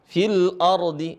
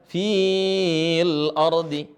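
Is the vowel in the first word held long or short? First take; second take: short; long. First: The vowel in the first word is short. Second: The vowel in the first word is held long. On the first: The speaker calls it right. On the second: The speaker calls it wrong.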